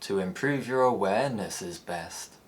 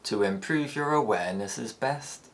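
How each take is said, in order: First: The pitch rises then falls with stretched syllables. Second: The pitch rises gradually through the ending. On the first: "The rise-fall" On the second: "the tail gradually rises"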